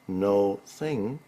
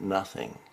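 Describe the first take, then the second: First: It is said as two separate words. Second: It is said as one single word. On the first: There is a presence that has no form. "no thing means there is a presence there, but it has no form" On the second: It is simply a denial. "Nothing is simply a denial"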